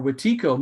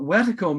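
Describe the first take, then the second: First: Wetiko with the weight on a long middle "tee"; second-syllable stress. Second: Wetiko with the weight on the first syllable; first-syllable stress. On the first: Speaker gives the alternative while explaining, Wetiko as wuh-TEE-ko. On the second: Speaker explains what the word means, saying Wetiko as WET-uh-ko. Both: Shown as a demonstration. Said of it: "or Wetiko means".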